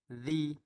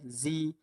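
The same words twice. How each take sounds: First: The consonant is a soft th-like sound. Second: The consonant is a buzzing z sound. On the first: The speaker calls it right. "dia perlu dikenakan hujung lidah dengan gigi atas" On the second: The speaker calls it wrong. "bukannya zi"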